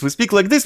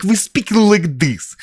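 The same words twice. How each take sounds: First: Said in the usual way. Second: Slow, exaggerated movie-Russian accent; mock Russian intonation. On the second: Shown as a demonstration. Mocking how actors try to impress Russians, caricature Russian accent. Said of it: "we have this fucking intonation".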